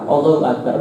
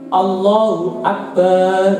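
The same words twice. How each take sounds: First: The final vowel of Akbar is short. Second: The final vowel of Akbar is lengthened. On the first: The speaker calls it right. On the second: The speaker calls it wrong.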